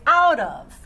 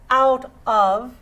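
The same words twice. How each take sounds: First: The two words are linked together smoothly. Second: The two words are said separately. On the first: The speaker calls it right. "I link it, I connect it, I say out of" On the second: The speaker calls it wrong. "instead of saying out of"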